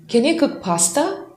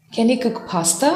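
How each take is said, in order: First: Can you cook pasta with stress on you and a rise; high rise on "you" in "Can you cook pasta?"; rising question. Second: "Can you cook pasta?" with a gentler rise on "you"; relaxed repeat, smaller rise on "you"; softer question. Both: Shown as a demonstration. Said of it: "some changes in your intonation".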